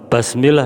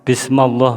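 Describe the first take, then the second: First: The vowel after b is an a sound. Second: The vowel after m is an a sound. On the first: "merubah harokat" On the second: "merubah harokat"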